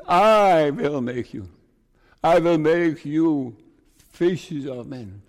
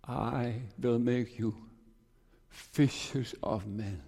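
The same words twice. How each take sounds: First: Louder, slow, each word weighed; slow ringing preacher's emphasis on I; emphatic promise. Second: Slow, hushed quoting of the verse; soft and slow. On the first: Acted. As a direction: proclaim the promise firmly. Repeating the Lord's promise. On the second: Retold or imitated. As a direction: let the promise land softly. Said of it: "this text came to me".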